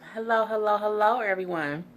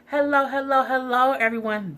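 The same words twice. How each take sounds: First: The greeting is said with little energy. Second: The greeting is said with more energy.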